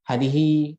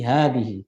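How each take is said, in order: First: The first vowel is short. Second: The first vowel is held long. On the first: The speaker calls it wrong. "jangan dibaca hadza atau hadihi gitu ya" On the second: The speaker calls it right. "Tapi hadihi. / Hanya itu dua harakat"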